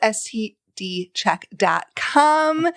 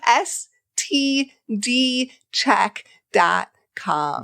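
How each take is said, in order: First: The phrase is said quickly. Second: The phrase is said slowly. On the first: The speaker calls it wrong. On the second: The speaker calls it right.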